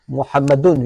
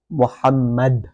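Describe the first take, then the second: First: The word ends with an added 'un' sound. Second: The word ends on a bare 'd' sound. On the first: The speaker carries on without stopping. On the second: The speaker stops on this word. "because I stopped on it, I say Muhammad"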